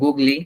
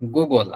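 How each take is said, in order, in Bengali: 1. শব্দটি শেষে একটি যুক্ত 'ee' স্বরধ্বনি দিয়ে শেষ হয়। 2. শব্দটি 'l' ধ্বনি দিয়ে শেষ হয়। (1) "এটা উচ্চারণ করা যেত না?" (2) "আমরা জানি এই তিনটা শব্দেরই কেমন উচ্চারণ হবে"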